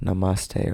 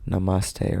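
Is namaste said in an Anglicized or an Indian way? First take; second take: Indian; Indian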